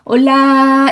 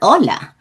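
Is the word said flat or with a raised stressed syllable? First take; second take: flat; stressed. First: The word is said flat with no stress. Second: The word is said with a raised stressed syllable. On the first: It sounds like Korean. The speaker calls it wrong. "올라 이렇게 하면 한국어예요. 그럼 강세도 없어요" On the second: It sounds like Spanish. The speaker calls it right. "얘는 무조건 올라"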